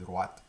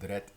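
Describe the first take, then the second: First: The vowel is said as a 'wa' sound. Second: The vowel is said as an open 'eh' sound. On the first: "et droite" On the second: "le son est et wa comme drette"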